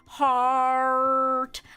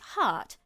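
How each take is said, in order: First: The word is said with a strong R sound. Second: The word is said without any R sound. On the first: "you can't be going, like" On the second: "if you're British, you might go, like"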